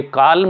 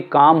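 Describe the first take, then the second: First: काल्म with the L sounded; L pronounced in calm. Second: काम with no L sound; silent L in calm. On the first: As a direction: say काल्म, voicing the silent L. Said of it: "ये काल्म नहीं होगा". (काल्म, ल की आवाज़ के साथ) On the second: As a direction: say काम, dropping the L completely. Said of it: "ये काम होगा". (काम, ल साइलेंट रखकर) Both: Shown as a demonstration.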